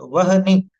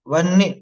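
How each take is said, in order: First: A full h is said, splitting the word. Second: A half h is said, joining the word. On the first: "पहले ह पूरा बोल करके देखें" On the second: "फिर धीरे धीरे उसको आधा करने का प्रयास करें"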